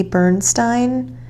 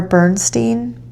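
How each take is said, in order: First: "Bernstein" ending like "stine"; "Bernstein" with a long i in the last syllable. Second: "Bernstein" ending like "steen"; "Bernstein" with a long ee in the last syllable. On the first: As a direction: say "Bernstein" to rhyme with "line". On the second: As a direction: say "Bernstein" to rhyme with "seen". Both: Real, not acted. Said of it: "or Bernstein".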